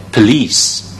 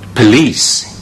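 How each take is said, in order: Both takes have the same delivery.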